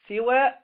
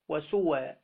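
First: The first vowel is i, ending short. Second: The first vowel is u, ending short. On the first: "بكسر السين" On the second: "والضم"

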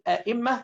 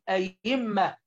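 First: The second consonant is a glottal stop. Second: The second consonant is a y sound. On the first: "بدل ما نقول أئمة" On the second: "ويجوز قلب الهمزة الثانية ياء، ... كما يقولها أهل المغرب العربي"

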